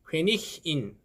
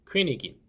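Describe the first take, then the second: First: The middle consonant is a breathy h sound. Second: The middle consonant is a hard g sound. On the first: The speaker calls it wrong. "퀘니힌 아닙니다" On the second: The speaker calls it right. "모음 앞에서는 원래대로 이그로 발음이 됩니다"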